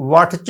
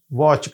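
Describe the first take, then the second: First: واٹچ with the "t" sounded before "ch"; wrong pronunciation. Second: واچ with "tch" said as one "ch"; correct pronunciation. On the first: Teacher warning against spelling pronunciation, واٹچ with an audible "t". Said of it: "واٹچ نہیں کہیں گے". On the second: Teacher giving the right way, واچ ending in a single "ch". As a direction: say واچ with no separate "t". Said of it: "واچ کہیں گے". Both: Shown as a demonstration.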